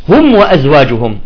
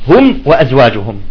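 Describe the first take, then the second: Both takes have the same delivery.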